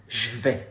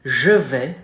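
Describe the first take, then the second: First: Je vais with the schwa dropped so je becomes a bare j; casual spoken French; contracted form. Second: Je vais with a full schwa in je; careful written-style French; full form. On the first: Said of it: "We use the apostrophe". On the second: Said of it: "in spoken French ... becomes". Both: Shown as a demonstration.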